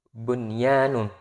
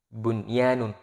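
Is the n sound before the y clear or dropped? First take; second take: clear; clear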